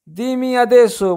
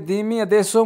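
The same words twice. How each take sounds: First: Slow, careful demo of Italian, pitched up; slow teaching model. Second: Said in the usual way. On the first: Shown as a demonstration. Teacher slowly models phrase for parents. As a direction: say it slowly so parents can copy. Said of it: "teacher demonstrates Italian phrase slowly". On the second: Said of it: "teacher repeats Italian phrase normally".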